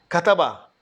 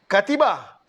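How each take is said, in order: First: The vowel after the t is a. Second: The vowel after the t is i. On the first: The speaker calls it right. "ta juga baris fathah" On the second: The speaker calls it wrong. "jangan katiba, salah"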